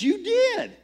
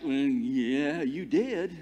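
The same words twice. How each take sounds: First: High, louder mock-accusing comeback; retold "yes you did" contradiction; insisting retort. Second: Retold hesitant agreement, drawn-out hum first; imitating an awkward yes; reluctant confirmation. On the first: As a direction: insist on it, pitch jumping way up. Tech guy insisting back in retold quarrel. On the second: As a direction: confirm it gently, at an everyday volume. Someone else reluctantly confirms.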